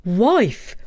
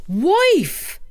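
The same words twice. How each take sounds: First: First call for his wife. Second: Second call, much higher; louder calling. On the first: Takitori calling his wife from the door, first call. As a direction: call her name. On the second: Takitori calling his wife again, much higher. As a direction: cry out for her. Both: Acted. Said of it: "cried Takitori".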